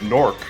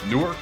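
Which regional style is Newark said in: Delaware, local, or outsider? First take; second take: local; outsider. First: It is said the way city locals say it. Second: It is said the way outsiders say it. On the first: The speaker is from the city. "if you're from Newark" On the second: The speaker is not from the city. "if you're not from Newark"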